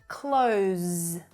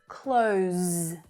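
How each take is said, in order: First: It ends with a voiced z sound. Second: It ends with a voiced z sound.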